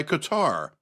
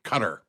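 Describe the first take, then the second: First: Qatar said with the stress on the first syllable; own Qatar pronunciation. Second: Qatar said the way TV anchors do, stress on the last syllable; newscaster's Qatar. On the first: Shown as a demonstration. Defying the news anchors, Qatar stressed up front. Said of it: "that's how I'm gonna say it". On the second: Retold or imitated. Mocking talking heads on the news, Qatar stressed at the end. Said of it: "They put the accent on the wrong syllable".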